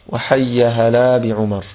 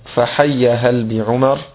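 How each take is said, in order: First: The word hal ends with a long a vowel. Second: The word hal ends on a silent consonant. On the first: "منونا" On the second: "بسكون اللام"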